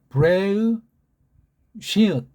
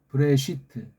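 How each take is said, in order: First: Sounds group into syllables with a final closed t. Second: The sounds are run together in a compressed form. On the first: The speaker calls it right. "삼성 읽기로 하면" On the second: The speaker calls it wrong. "서양 애들이 읽는 식으로"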